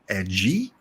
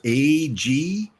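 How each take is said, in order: First: The name is said as one short syllable. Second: The name is said as two separate letters. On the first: The speaker calls it wrong. "or Ag" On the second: The speaker calls it right. "A G is how you pronounce this one"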